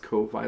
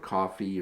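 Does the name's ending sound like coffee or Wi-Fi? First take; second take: Wi-Fi; coffee. First: The name ends rhyming with Wi-Fi. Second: The name is said like the word coffee. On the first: "it's pronounced Ko-Fi, like Wi-Fi" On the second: "or Coffee or however they pronounce it"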